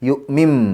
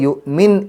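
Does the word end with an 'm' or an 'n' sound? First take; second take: m; n. First: The word ends with an m sound. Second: The word ends with an n sound. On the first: The speaker calls it right. "മീമിലേക്കാണ് പോവുക" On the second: The speaker calls it wrong. "എന്നല്ല"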